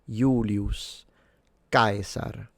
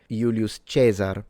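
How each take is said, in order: First: Caesar is said with a full diphthong. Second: Caesar is said with a plain single vowel. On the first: This is how the ancient upper class said it. "He would pronounce it Julius with a long U and a retracted S at the end... full diphthong" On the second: This is the later church pronunciation. "In ecclesiastical pronunciation, we say Julius Caesar"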